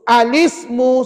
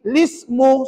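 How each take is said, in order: First: The word begins with an 'a' vowel sound. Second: The word begins directly with an 'l' sound. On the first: The word is read on its own. "kalau tuan-tuan nak baca kalimah yang bergaris itu saja" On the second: The word is joined to the word before it. "jika kita baca wasal, kita baca dengan ini"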